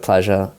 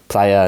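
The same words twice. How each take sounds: First: It is said with the Argentinian sound. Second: It is said without the Argentinian sound.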